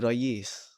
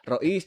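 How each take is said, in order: First: The middle sound is a y glide. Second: The middle sound is a glottal stop. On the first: This is the Egyptian dialect form. "Huruf Hamzah jadi Ya" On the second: This is the standard Arabic form. "Huruf Hamzah jadi Ya"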